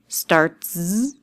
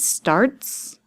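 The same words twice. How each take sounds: First: The word ends with a buzzing z sound. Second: The word ends with a hissing s sound.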